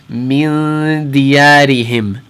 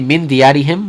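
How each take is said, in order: First: The nasal n sound is held for two beats. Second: The nasal n sound is cut short. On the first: The speaker calls it right. "We're going to hold it, and we're going to make sure that we say it for about two haraka" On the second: The speaker calls it wrong. "we're not going to say"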